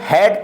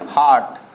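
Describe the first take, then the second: First: The vowel is pronounced 'ay'. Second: The vowel is pronounced 'ah'. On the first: The speaker calls it right. "हैट पढ़ेंगे" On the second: The speaker calls it wrong. "हार्ट हमारा गलत हो जाएगा"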